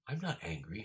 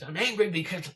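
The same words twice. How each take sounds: First: Said in the usual way. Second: Loud, high outburst; hammed-up angry snap; sudden mock anger. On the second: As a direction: flip abruptly into an imitated angry yell. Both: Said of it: "a switch".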